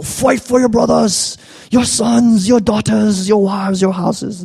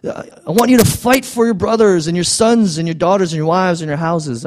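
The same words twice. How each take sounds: First: Hammed-up Scottish rallying cry, high and slow; horrible Braveheart accent. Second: Said in the usual way. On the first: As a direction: ham up a bad Scottish accent like a Braveheart speech. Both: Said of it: "That was the horrible accent".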